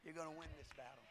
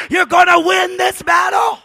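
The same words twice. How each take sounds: First: Soft fast murmured promise; quiet repeat. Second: Loud, high preacher's shout; triumphant shouted declaration; shouted promise. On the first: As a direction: drop it to a near hush. Same promise dropped to quiet. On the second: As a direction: hurl it out to the back row. Shouted promise before quiet repeat. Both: Shown as a demonstration.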